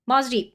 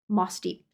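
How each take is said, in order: First: The first word ends in a buzzing z sound. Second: The first word ends in a soft s sound.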